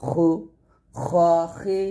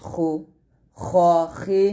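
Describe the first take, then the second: Both takes have the same delivery.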